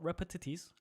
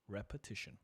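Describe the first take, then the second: First: The word ends with an 'itis' sound. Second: The word ends with an 'ition' sound. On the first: The speaker calls it wrong. "Not repetitis" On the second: The speaker calls it right. "I got it right"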